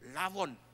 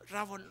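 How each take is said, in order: First: The word begins with an L sound. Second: The word begins with an R sound. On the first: The speaker calls it wrong. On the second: The speaker calls it right.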